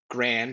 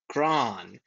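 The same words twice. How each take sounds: First: The vowel is not an 'ah' like Saab. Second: The vowel is an 'ah' like Saab. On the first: The speaker calls it wrong. "not Graan" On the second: The speaker calls it right. "but Graan"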